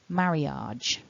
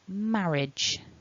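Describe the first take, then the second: First: The last syllable has two vowel sounds. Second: The last syllable has one short vowel. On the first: The speaker calls it wrong. "a very common mistake is for people to pronounce this word" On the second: The speaker calls it right. "what you want to aim for is"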